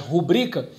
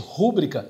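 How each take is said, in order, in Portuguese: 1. A tônica está na segunda sílaba. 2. A tônica está na primeira sílaba. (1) "sua sílaba tônica... é a penúltima, que é bri" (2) "muita gente fala é, equivocadamente"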